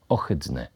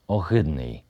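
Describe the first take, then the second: First: The h sound is voiceless. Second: The h sound is voiced. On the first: The speaker calls it right. "wymawiane z bezdźwięcznym ch" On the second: The speaker calls it wrong. "W języku ukraińskim wyrazy te są wymawiane z dźwięcznym ch"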